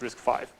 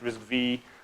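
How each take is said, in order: First: The final part is said as the number five. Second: The final part is said as the letter vee. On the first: The speaker calls it right. "it's, it's RISC-V" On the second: The speaker calls it wrong. "Don't read it RISC-V like the Intel people did"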